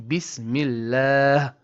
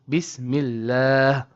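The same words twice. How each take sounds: The two takes are said the same way.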